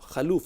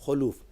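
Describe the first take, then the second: First: The first vowel is a short 'a'. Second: The first vowel is a short 'u'. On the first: The speaker calls it wrong. "खलूफ नहीं" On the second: The speaker calls it right. "यानी खा के पेश के साथ"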